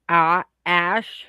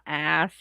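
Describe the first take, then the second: First: The word ends with an sh sound. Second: The word ends with an s sound. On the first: The speaker calls it wrong. "it's ah ash" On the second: The speaker calls it right. "it's not ass"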